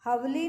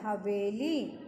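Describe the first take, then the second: First: हवली with no ए after व; two-beat "hav-li" for हवली; wrong, missing vowel. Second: हवेली with a long "ve"; stretched वे in हवेली; full ए vowel. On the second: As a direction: say हवेली as "ha-vay-lee", lower. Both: Shown as a demonstration. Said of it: "हवली नहीं होता है".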